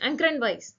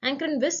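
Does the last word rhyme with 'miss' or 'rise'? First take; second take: rise; miss. First: The last word rhymes with 'rise'. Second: The last word rhymes with 'miss'. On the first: "வைஸ்னு சொல்லலாம்" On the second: "விஸ்ன்னு சொல்லலாம்"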